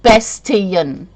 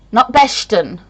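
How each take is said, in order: First: Bastian said with a clear T, BAS-tee-an; correct pronunciation. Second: Bastion said as BASH-tun, the wrong way; mock the mispronounced Bastion; wrong pronunciation. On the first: Correcting viewers on her surname, careful and clear. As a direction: say Bastian with a crisp T sound. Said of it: "it's pronounced". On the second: Showing viewers the way people wrongly say her name. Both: Shown as a demonstration.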